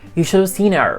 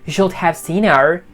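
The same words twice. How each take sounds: First: The words are reduced and run together. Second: Both words are said fully and separately. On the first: The speaker calls it right. "he speaks fast here" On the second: The speaker calls it wrong. "He doesn't say like"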